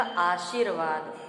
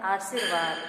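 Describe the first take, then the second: First: आशीर्वाद with sh and long ee; long shee inside आशीर्वाद; correct आशीर्वाद. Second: आशीर्वाद with s for sh; short si inside आशीर्वाद; mispronounced आशीर्वाद. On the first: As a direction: say आशीर्वाद as "aasheervaad". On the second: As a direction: say आशीर्वाद as "aasirvaad". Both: Shown as a demonstration. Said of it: "सही उच्चारण होगा".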